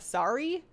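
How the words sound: It is said with an American accent. "Americans kind of make it like a sorry"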